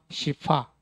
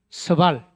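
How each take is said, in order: First: It is read the Mandarin way, ending in vowel. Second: It is read the Korean way, ending in L. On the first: "시파 이렇게 발음합니다. 중국어로는" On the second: "우리말로 읽으면 이게 서발인데"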